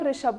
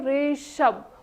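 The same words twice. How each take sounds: First: The name is said at normal length. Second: The name is stretched out and drawn long.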